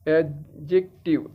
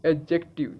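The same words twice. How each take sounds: First: Slow एडजेक्टिव in separate syllables; teacher sounding out एडजेक्टिव; phonetic breakdown. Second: Said in the usual way. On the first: Shown as a demonstration. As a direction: read एडजेक्टिव out piece by piece, slowly. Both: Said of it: "इसको यहाँ से पता लगेगा".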